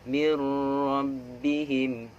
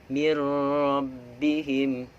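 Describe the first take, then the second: The two takes are said the same way.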